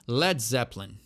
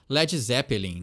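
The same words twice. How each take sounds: First: English-style, with the word shortened and clipped. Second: Portuguese-style, with every letter sounded out. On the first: The speaker calls it right. "o jeito correto é dar essa encurtadinha na palavra" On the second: The speaker calls it wrong. "Dá aquela portuguesada, fala todas as letras possíveis"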